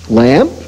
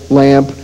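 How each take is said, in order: First: The pitch rises at the end like a question. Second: The pitch falls flatly like a statement. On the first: It asks a question. "said with a rising intonation as a question" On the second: It names an object plainly. "simply be said either as a straight word"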